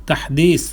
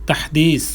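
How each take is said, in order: Both takes have the same delivery.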